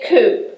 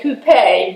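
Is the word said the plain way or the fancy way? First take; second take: plain; fancy. First: The word is said the plain, everyday way. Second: The word is said the fancy, accented way. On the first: This is the everyday way of saying it. "but I say coupe" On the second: This sounds fancy and needs the accent mark. "if I want to sound really fancy, I'll say coupe"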